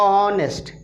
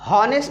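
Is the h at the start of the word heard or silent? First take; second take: silent; heard. First: The word begins directly with the vowel sound. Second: The word begins with a clear h sound. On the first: The speaker calls it right. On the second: The speaker calls it wrong. "इसको हॉनेस्ट ना कह"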